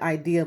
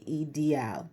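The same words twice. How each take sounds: First: It is pronounced with English sounds. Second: It is pronounced with Spanish sounds. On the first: "It looks like ideal" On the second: "they would say it ideal"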